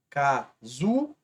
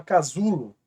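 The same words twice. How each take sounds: First: "Casulo" very slow, syllable by syllable, ZU drawn out; stress on ZU. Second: Said in the usual way. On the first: Shown as a demonstration. Teacher showing the stronger syllable, slow stress on ZU in "Casulo". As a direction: split "Casulo" into ca, ZU, lo, stretching the middle. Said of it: "o zu é mais forte".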